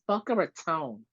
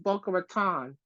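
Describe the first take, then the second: First: The last syllable is not said like 'ton'. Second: The last syllable is said like 'ton'. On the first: The speaker is a local. The speaker calls it right. "it's Boca Raton, not Ton" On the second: The speaker is from out of town. The speaker calls it wrong. "a lot of people out town or out of towners will or pronounce it like"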